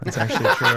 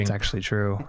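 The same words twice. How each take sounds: First: Put-on creaky old man voice. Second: Said in the usual way. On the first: Shown as a demonstration. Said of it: "I think my old man voice was inspired". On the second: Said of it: "I think my old man voice".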